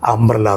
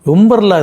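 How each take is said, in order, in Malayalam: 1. ഈ വാക്ക് 'uh' ശബ്ദത്തിലാണ് തുടങ്ങുന്നത്. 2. ഈ വാക്ക് 'yoo' ശബ്ദത്തിലാണ് തുടങ്ങുന്നത്. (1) "അംബ്രല എന്നേ വായിക്കും. കാരണം യു എന്ന അക്ഷരത്തിന് ആ എന്ന ശബ്ദവും ഉണ്ട്" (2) "ഒരിക്കലും അവർ കുട എന്ന അർത്ഥം കിട്ടുന്ന വാക്കിന് യുംബ്രല യുംബ്രല എന്ന് വായിക്കൂല"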